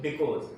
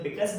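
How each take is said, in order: First: "because" with a rounded aw, "bi-kawz"; alternative pronunciation of because. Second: "because" with a short uh, "bi-kuz"; own pronunciation of because. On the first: Teacher saying the sense is the same, "because" as bi-kawz. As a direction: say "because" ending in a long -kawz. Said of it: "तो sense वही है". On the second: Teacher defending his own pronunciation, "because" as bi-kuz. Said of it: "ये मेरा खुद का उच्चारण है". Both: Shown as a demonstration.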